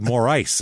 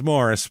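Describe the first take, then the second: First: The name ends with the word ice. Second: The name ends like the name Morris. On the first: "more ice is what I've heard other people say" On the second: "it's Morris"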